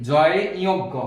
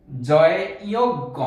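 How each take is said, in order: First: Said in the usual way. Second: জয়ে ইয় গ spelled out slowly, each part separated; slow spelled-out name. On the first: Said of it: "বলে থাকি". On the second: Shown as a demonstration. Teacher slowly spelling out জয়ে ইয় গ for young pupils. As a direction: sound out জয়ে ইয় গ slowly and clearly for the class. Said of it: "যারা একটু বড় আছি তারা বুঝবে".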